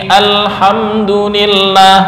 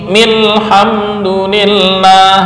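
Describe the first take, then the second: The two takes are said the same way.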